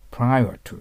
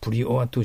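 First: The first syllable sounds like 'pry'. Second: The first syllable sounds like 'pree'. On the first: The speaker calls it right. "ですから" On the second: The speaker calls it wrong. "じゃないから"

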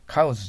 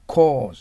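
First: The vowel is cut short. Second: The vowel is drawn out long. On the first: The speaker calls it wrong. "cause じゃないです" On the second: The speaker calls it right. "cause です"

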